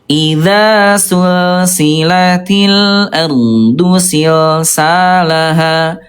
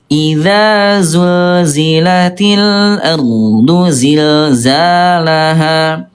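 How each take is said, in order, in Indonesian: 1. Bunyi desis tak bersuara, ada hembusan napas. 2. Bunyi desis bersuara, tanpa hembusan napas. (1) "yang ke satu" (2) "jawaban yang betul adalah yang ke yang kedua"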